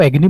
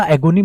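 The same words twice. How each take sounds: First: एगनी said short, EG-nee, no o sound; the correct एगनी, two quick syllables; एगनी clipped to two syllables, stress on the first; right pronunciation. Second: एगोनी said with a long o, a-GO-nee; the rejected reading एगोनी, ए-गो-नी with a full o; एगोनी said the way not to say it; wrong pronunciation. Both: Shown as a demonstration. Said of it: "मैंने बोला एगोनी नहीं".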